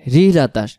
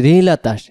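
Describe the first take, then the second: No difference in how they are said.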